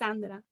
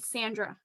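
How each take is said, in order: First: The name is said with a non-English accent. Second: The name is said with an American English accent. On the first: It is the speaker's real name. "My name is Sandra. It's different" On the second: It is said so listeners can understand it easily. "that's how you will pronounce it in, you know, like uh, American Canadian English"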